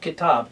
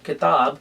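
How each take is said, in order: First: The t is said the common English way. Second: The t is said the Punjabi way. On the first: The speaker calls it wrong. "many people they will pronounce it Kitab" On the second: The speaker calls it right. "in Punjabi, I'm telling you the word Kitab, like T"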